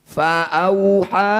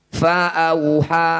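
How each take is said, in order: The two takes are said the same way.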